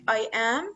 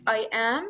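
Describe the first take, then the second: First: It is said as two separate full words. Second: The same.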